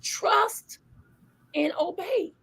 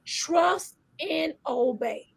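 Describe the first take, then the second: First: Whispered. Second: Slow, deliberate and quiet; slow and soft. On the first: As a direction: whisper Trust, then softly obey. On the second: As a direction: lay each word down slowly. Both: Shown as a demonstration.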